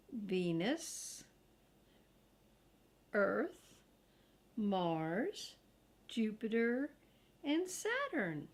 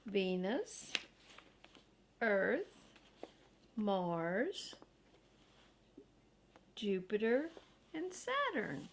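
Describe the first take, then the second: No difference in how they are said.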